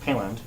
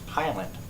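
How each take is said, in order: First: The first syllable sounds like 'pill'. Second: The first syllable sounds like 'pie'. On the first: This is how a news reporter said the name. The speaker calls it wrong. "mispronounced my last name. It's not" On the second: This is how the owner says his own name. The speaker calls it right.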